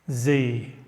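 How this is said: The letter is said the American way, zee.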